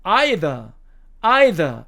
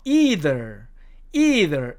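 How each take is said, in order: First: Either said EYE-thuh, no final r; British EYE-thuh, clearly demonstrated; British pronunciation. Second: Either said EE-ther with a final r; American EE-ther, clearly demonstrated; American pronunciation. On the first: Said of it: "영국식 발음으로는". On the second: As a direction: say either with a long ee, American style. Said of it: "미국식 발음으로는요". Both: Shown as a demonstration.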